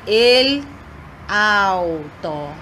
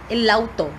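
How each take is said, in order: First: The two words are said separately. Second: The two words are joined into one. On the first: The speaker calls it wrong. "Eu não vou dizer el auto. Não" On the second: The speaker calls it right. "como se fosse uma palavra só"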